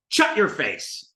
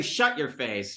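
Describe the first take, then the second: First: "Shut" said as "chut", drawn out slowly; brother's "chut" for "Shut"; sh turned to ch. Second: Said in the usual way. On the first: Retold or imitated. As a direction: start "Shut" with a hard ch, slow. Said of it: "He'd say". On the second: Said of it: "But he would never say".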